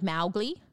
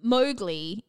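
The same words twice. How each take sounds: First: The first syllable rhymes with cow. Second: The first syllable does not rhyme with cow. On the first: This is how the author meant the name to sound. The speaker calls it right. "it's actually meant to be like Mowgli. Like it's Mao rhyming with cow" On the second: This is how the film says the name. The speaker calls it wrong. "Mowgli in the movie is what they say"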